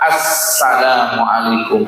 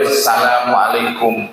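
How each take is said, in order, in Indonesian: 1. Salam ini dimulai dengan bunyi artikel 'as-'. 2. Salam ini dimulai tanpa bunyi artikel 'as-'. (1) "mesti ada alif lam ma'rifat" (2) "gak boleh"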